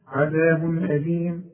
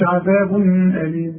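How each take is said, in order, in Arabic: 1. صوت النون يُنطق بوضوح. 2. صوت النون مخفي ومغنّ. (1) "أنت عارف إن الحرف ده من حروف الإبهار" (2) "فما قلش عذاب أليم"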